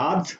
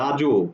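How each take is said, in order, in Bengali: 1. সিলেবলটি ব্যঞ্জন j দিয়ে শেষ হয়। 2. সিলেবলটি একটি যোগ করা o স্বরধ্বনি দিয়ে শেষ হয়। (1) "আমরা উচ্চারণ করছি এভাবে" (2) "আমরা কিন্তু এভাবে বলছি না"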